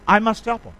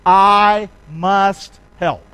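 First: Said in the usual way. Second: Each word slow and weighted, louder; drawn out, I heavy; slow emphatic. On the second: Shown as a demonstration. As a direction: lay down I must help as the answer. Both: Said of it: "You know what the answer is?".

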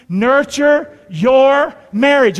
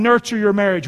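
First: Very slow, loud, word by word; call-and-response. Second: Said in the usual way. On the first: Shown as a demonstration. Preacher leading the congregation to repeat, slow loud call-and-response. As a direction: spell out each word for a crowd to repeat. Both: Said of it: "Would you say that with me".

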